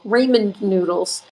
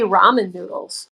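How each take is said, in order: First: The first syllable of ramen sounds like 'ray'. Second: The first syllable of ramen sounds like 'rah'. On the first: "I don't know why I say Raymond now" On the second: "I used to say ramen noodles"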